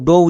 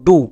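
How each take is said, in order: First: The word ends with an 'oh' vowel. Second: The word ends with an 'oo' vowel. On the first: The speaker calls it wrong. "কেউ কিন্তু ভুল করেও ডো উচ্চারণ করবে না" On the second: The speaker calls it right. "এর জন্য আমরা উচ্চারণ করব ডু"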